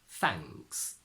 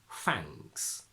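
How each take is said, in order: The two takes are said the same way.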